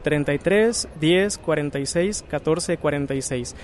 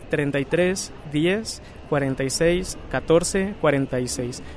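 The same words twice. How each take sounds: First: The number is said at normal speed. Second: The number is said more slowly.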